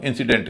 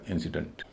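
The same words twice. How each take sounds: First: इंसिडेंट with a full "dent"; common pronunciation. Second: इंसिडेंट ending in a light "dunt"; corrected pronunciation. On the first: Teacher quoting how we usually say it, common pronunciation. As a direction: say इंसिडेंट with every vowel full. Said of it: "इसको हम इंसिडेंट कहते हैं". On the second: Teacher modelling the rule, corrected pronunciation. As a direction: stress first syllable of इंसिडेंट, reduce the last. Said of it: "इसको बोला जाएगा इंसिडेंट". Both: Shown as a demonstration.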